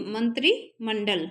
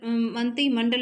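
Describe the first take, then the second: First: मंत्री slowly, with r sounded, "man-tri"; correct MANTRI. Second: मंत्री as "man-ti", no r; mispronounced MANTI. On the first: Teacher correcting students, slow मंत्री with its r. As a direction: split मंत्री from मंडल, clear "tri". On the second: Teacher showing the mistake, मंत्री said as "man-ti". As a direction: drop the r from मंत्री before मंडल. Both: Shown as a demonstration. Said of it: "मंत्री मंडल नहीं".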